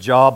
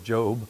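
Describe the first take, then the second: First: The vowel is short, like in 'job'. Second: The vowel is long, like 'oh'. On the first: The speaker calls it wrong. "I thought it said Job" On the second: The speaker calls it right. "it's pronounced like two O's"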